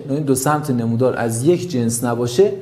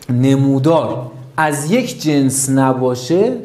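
First: Said in the usual way. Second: Slow, every word of نمودار از یک جنس نباشه laid out with weight on یک; slow emphasis. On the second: Shown as a demonstration. Teacher drilling the key rule into students, slow and emphatic. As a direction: spell out نمودار از یک جنس نباشه slowly, pressing یک. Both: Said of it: "حتماً این رو یاد داشته باشین".

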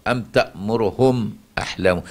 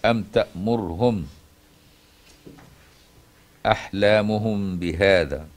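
First: تأمرهم with only a quick trace of damma on the ra; اختلاس ضمة الراء في تأمرهم; stolen damma on ra. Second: أم تأمرهم with the ra of تأمرهم fully silenced, slow; تسكين الراء في تأمرهم; sukun on the ra. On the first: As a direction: clip the damma on the ra of تأمرهم short. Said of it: "باختلاس ضمة الراء". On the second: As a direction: say تأمرهم with a still ra, no vowel. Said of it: "بتسكين الراء". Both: Shown as a demonstration.

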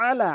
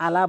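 First: আলা with a pressed ain from the throat; correct way. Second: আলা without the ain, plain a; wrong way. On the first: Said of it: "আইনটি চাপ দিয়ে". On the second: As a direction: common mistake on আলা. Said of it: "এখানে আলা বলা যাবে না". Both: Shown as a demonstration.

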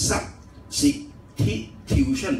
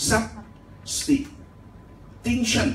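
First: Substitution broken slowly into syllables as written; spelled-out reading. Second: Substitution said slowly in split syllables, sub-sti-tution; correct pronunciation. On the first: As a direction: sound out "substitution" syllable by syllable, sub-si-ti-tu-tion. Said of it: "ภาษาอังกฤษเขียนอย่างนี้นะครับ". (อ่าน substitution ช้าๆ ทีละพยางค์ตามตัวเขียน) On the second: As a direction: teach "substitution" slowly with the s joined to the t. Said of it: "แต่เวลาออกเสียงเนี่ยต้องอ่านคำว่า". (ออกเสียง substitution ช้าๆ แยกพยางค์ ซับ-สติ-ทิวชัน) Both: Shown as a demonstration.

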